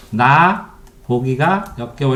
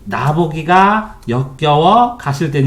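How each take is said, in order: First: Slow word by word. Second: 나 보기가 역겨워 가실 땐 in three groups, with a pause between each group; slow, with a clear break after 나 보기가 and after 역겨워; measured reading, split 나 보기가 / 역겨워 / 가실 땐; read in three beats. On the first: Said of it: "이렇게 띄어썼죠". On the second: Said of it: "이렇게 읽어요". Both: Shown as a demonstration.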